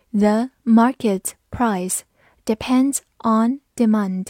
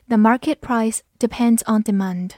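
First: Slow, word-by-word teaching read. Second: Said in the usual way. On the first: Shown as a demonstration. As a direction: read it slowly with clear gaps between words. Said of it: "好，慢读一遍". (一词一顿地慢读) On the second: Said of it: "慢读一遍".

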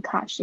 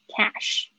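First: British-style CASH with an open "ah" vowel; British pronunciation. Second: American short A, then cash; American pronunciation. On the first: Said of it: "不知道是不是英式发音会念cash". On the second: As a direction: say cash the American way, front "a" as in cat. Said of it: "美式发音的话". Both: Shown as a demonstration.

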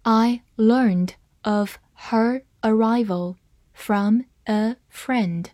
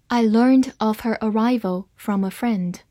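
First: Very slow, word by word, with gaps between words; slow demo reading. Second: Said in the usual way. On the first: Shown as a demonstration. Teacher modelling the sentence for learners, slow word-by-word reading. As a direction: read it out slowly for learners, each word separate. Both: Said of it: "好，慢慢来读".

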